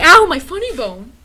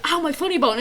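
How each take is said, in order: First: Louder mocking yelp. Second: Lighter mock yelp. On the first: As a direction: yelp it out, making fun. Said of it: "we kept making fun of it, like". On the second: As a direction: tease it gently. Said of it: "you went like".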